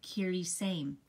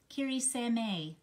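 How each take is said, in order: First: Kiri Same tried as KEE-ree SAME; first guess at Kiri Same, said plainly; unsure pronunciation. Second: Kiri Same slowed, Same drawn out as SEH-meh; slow second try at Kiri Same; trying another pronunciation. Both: Shown as a demonstration. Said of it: "I don't know if I know how to pronounce it".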